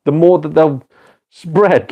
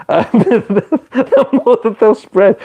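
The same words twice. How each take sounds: First: Said in the usual way. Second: High, slow, laughing through the words; cracking up while repeating his point. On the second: Real, not acted. Streamer repeats his point to chat, laughing.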